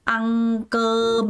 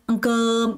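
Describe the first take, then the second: First: Both syllables get equal stress. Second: The second syllable is stressed, the first light. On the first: The speaker calls it wrong. "아무도 ăn cơm 이렇게 하는 사람 없어요" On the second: The speaker calls it right. "이렇게 발음합니다"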